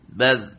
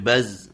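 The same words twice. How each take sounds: First: The final consonant is a soft th sound. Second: The final consonant is a buzzing z sound. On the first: The speaker calls it right. "Za, zi, zu, baz" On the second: The speaker calls it wrong. "enggak boleh baz. Nah, enggak boleh ada huruf Z-nya"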